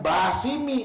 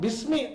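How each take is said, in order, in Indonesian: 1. Vokal pertama dibaca panjang. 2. Vokal pertama pendek, tidak dipanjangkan. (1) "harusnya kan jadi mad, mad tabi'i" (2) "ini langsung bismi tuh. Kenapa nggak dibaca itu alifnya?"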